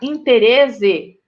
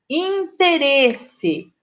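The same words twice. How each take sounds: First: The middle consonant is a buzzing z sound. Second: The middle consonant is a hissing s sound. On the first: The speaker calls it wrong. "para não ficar interesse" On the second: The speaker calls it right. "para sair o som do C"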